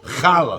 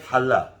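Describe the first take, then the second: First: It starts with a hard, scraping throat sound. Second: It starts with a soft, breathy h sound. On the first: The speaker calls it wrong. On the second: The speaker calls it right. "We say"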